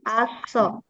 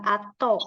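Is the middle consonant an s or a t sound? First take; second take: s sound; t sound. First: The middle consonant is an s sound. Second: The middle consonant is a t sound. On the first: The speaker calls it right. "at sama o akan dibaca seperti aso" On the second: The speaker calls it wrong. "jadi bukan ato ya"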